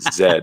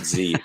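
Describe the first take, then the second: First: The letter is said as zed. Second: The letter is said as zee. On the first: "I'm becoming a good Canadian there" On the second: "not Z"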